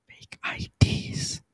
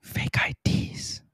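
First: Breathy, slow whisper. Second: Slow, breathy whisper again. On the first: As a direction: whisper it secretly. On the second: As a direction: hush it like a secret. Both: Pretend. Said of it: "I don't know if they can hear you whisper that whispery".

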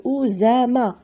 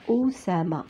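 First: أوزامة with a voiced z between the vowels; teacher's demo of أوزامة with a z sound; single S as Z. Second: أوسامة with s, not z, between the vowels; teacher's demo of أوسامة with a clear s sound; double S as S. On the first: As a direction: say the S in أوزامة as a buzzed z. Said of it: "Quand كانت S وحدة". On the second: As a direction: say أوسامة with a hissed, voiceless s. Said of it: "Mais هنا كاينة deux S entre deux voyelles". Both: Shown as a demonstration.

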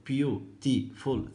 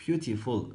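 First: Beautiful drawn out very slowly, each syllable separate; teacher slowly counting the syllables of beautiful. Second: Said in the usual way. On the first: Shown as a demonstration. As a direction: stretch out beautiful so every syllable is heard. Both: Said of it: "ثلاث مقاطع صوتية".

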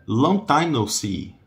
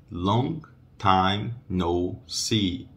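First: Said in the usual way. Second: "Long time no see." slow, "long" without its G sound; slow, G nearly silent. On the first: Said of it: "o G do long". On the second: Shown as a demonstration. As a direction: drop the G of "long", glide into "time". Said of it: "uma letra que quase não é pronunciada é o G do long".

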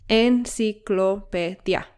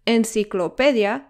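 First: "enciclopedia" slowly split, en-ci-clo-pe-dia; syllable by syllable. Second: Said in the usual way. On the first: Shown as a demonstration. Teacher counting five syllables for learners, syllable by syllable.

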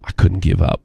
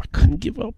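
First: Said in the usual way. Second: "I couldn't give up" pushed much higher, rising at "up"; pleading peak. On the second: Real, not acted. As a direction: climb to the top of the voice on "I couldn't give up". Repeating the phrase, building up.

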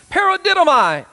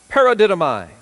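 First: Paradidomai said high and loud, stressed on the last syllable "mai"; preacher calls out Paradidomai, high and loud; Greek word paradidomai. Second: Paradidomai said at normal pitch, loud and falling, stressed on "mai"; Greek word again, settled. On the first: Preacher teaching the church a Greek word, proclaiming Paradidomai high. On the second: Preacher repeating the Greek word to his church, firmly and level. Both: Shown as a demonstration. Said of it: "that word paradidomai from the Greek".

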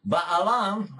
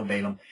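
First: Balaam said as bah-ah-LAHM, open a vowels; Balaam in the Hebrew way, stress on the last syllable; Hebrew pronunciation. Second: Balaam said as BAY-lum, English vowels; Balaam the usual English way, stress on the first syllable; Balaam with plain English vowels; English pronunciation. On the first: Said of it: "practice learning how to do it in Hebrew". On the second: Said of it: "learn how to undo it". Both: Shown as a demonstration.

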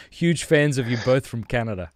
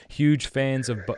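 First: Said in the usual way. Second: Breaking into a laugh mid-read; reading through a laugh. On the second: Real, not acted. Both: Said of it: "I didn't mean to laugh".

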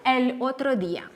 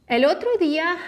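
First: Said in the usual way. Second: El otro día lifted high with a rising end; teacher's emphatic repeat; repeated higher and louder. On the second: Shown as a demonstration.

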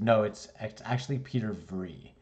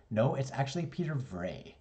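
First: "Vrij" said as "vree", a bit firm; insisting on own name. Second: "Vrij" said as "vray"; teacher insisting. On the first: Student getting a little mad, says "Vrij" as "vree". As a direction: stress Peter, say "Vrij" like free. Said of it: "I get a little bit mad". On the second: Teacher across the room, says "Vrij" as "vray". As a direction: say "Vrij" rhyming with day. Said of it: "and he goes". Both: Retold or imitated.

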